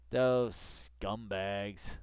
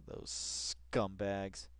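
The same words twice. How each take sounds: First: Even more drawn-out sneer on "Those scumbags"; slower contempt. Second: Drawn-out scornful sneer; slow contempt. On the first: Streamer repeating the insult, drawn out. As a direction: stretch "Those" long and scornful. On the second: Streamer sneering at the network, slow contempt. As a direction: drag out the insult. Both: Real, not acted.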